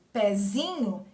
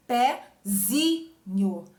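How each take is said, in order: First: Said in the usual way. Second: "pezinho" stretched very slowly, weight on zi; stress on zi. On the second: Shown as a demonstration. Teacher showing students the stressed syllable zi, slow and deliberate. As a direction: draw out "pezinho" syllable by syllable, leaning on zi. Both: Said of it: "Zi é a sílaba tônica".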